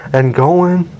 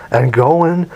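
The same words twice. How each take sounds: The two takes are said the same way.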